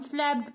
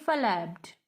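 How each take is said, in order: First: Said in the usual way. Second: FLAPPED misread as "fa-lapped", extra vowel after the F; wrong two-syllable pronunciation. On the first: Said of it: "इसको हम flapped पढ़ते हैं". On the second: Shown as a demonstration. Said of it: "ना कि flapped".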